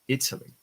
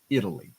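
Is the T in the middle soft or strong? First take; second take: strong; soft. First: The middle T is strong and crisp. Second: The middle T is soft and light. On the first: "in other accents, it's a little bit stronger" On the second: "it kind of becomes softer and lower ... in my accent"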